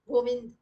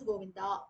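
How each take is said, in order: First: The final vowel is dropped. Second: The final vowel is lengthened. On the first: "they will chant the last letter only half" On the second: "adding an akar"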